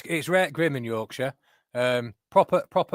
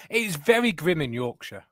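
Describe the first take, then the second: First: Mock broad Yorkshire, "rare grim" said for "real grim"; broad Yorkshire accent. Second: Slow, refined Harrogate Yorkshire voice with a careful "very grim"; posh Harrogate accent. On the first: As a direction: put on a thick Yorkshire accent to play the local reporter. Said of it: "Why are you dialing down your accent". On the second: Pretend. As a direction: tone the Yorkshire accent down to a polished Harrogate one, slowly. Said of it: "That's my Harrogate accent".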